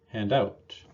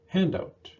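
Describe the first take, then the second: First: The stress falls on the second word. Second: The stress falls on the first word. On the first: It is used as a verb. "Two-word verbs are often stressed on the second word" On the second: It is used as a noun. "Noun partners of these verbs have primary stress on the first word"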